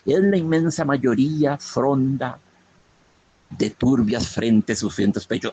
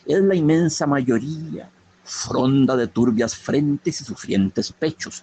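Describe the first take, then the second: First: The line is read with a pause inside it. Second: The line is read without any internal pause. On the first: The phrase is split where the verse ends. The speaker calls it wrong. "Ahí puse una coma donde no debe ir" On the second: The words form one unit of meaning. The speaker calls it right. "no debe haber pausa"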